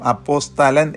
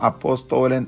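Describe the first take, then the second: First: The vowel after the 'st' is a short 'a'. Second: The vowel after the 'st' is a long 'o'. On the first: The speaker calls it right. "എന്ന് മാത്രമേ പറയാവൂ" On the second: The speaker calls it wrong. "എന്ന് പറയരുത്"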